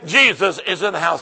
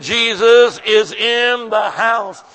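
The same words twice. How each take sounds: First: Said in the usual way. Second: Slow, loud, drawn-out proclamation; Jesus is in the house, shouted slowly. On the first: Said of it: "look at them and say". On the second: Shown as a demonstration. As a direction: shout it out, stretching every word. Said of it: "I said".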